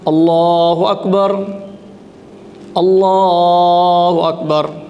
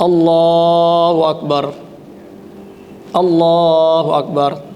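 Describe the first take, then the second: The two takes are said the same way.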